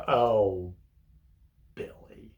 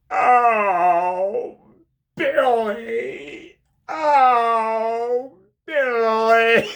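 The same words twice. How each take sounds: First: A fading, let-down "Oh, Billy"; disgusted, disappointed. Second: High, loud moaning cry of "Oh, Billy!"; Jim Carrey moaning. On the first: Visitor scolding Billy in prison, disgusted and disappointed. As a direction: sound disgusted and disappointed in him. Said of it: "like, with disgust and disappointment". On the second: Jim Carrey through the prison glass, loud, high moaning. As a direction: ham it up like a lovesick inmate. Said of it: "he starts going". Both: Retold or imitated.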